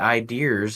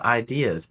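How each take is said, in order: First: An R sound is added at the end. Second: No R sound is added at the end. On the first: "why do some people say ideas instead of" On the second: "instead of ideas"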